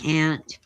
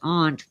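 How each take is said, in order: First: The word is said in a Californian way. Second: The word is said in a non-Californian way. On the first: This is how the speaker's home region says it. "I'm California born and raised. So um, I say aunt" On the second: This is the standard way to say it. "if you, you pronounce it correctly, it's aunt"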